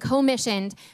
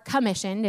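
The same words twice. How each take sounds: First: The first syllable is a full 'co' sound. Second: The first syllable is reduced and weak.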